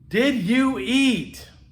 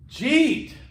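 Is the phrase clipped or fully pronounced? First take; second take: full; clipped. First: Each word is pronounced separately and fully. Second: The words are run together into one syllable. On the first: The speaker calls it right. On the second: The speaker calls it wrong.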